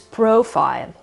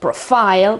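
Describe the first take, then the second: First: The stress is on the first syllable. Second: The stress is on the last syllable. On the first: The speaker calls it right. "with the accent at the beginning again, on the O sound" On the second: The speaker calls it wrong. "It's not at the end of the word, it's not profile"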